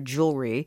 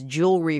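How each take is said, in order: First: The word is said without an extra syllable. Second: The word is said with an extra middle syllable. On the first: The speaker calls it right. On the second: The speaker calls it wrong.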